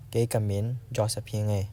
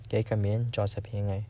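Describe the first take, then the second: No difference in how they are said.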